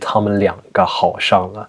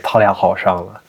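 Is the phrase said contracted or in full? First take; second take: full; contracted. First: Every syllable is said in full. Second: Syllables are dropped and merged into fewer. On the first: It sounds like a textbook. The speaker calls it wrong. "That sounds like textbook Mandarin" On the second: It sounds native-like. The speaker calls it right. "You can say"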